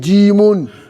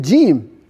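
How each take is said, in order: First: The name ends with an added 'un' ending. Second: The name ends bare, with no added ending. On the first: The speaker calls it wrong. "Are you say jimun?" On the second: The speaker calls it right. "You say jim"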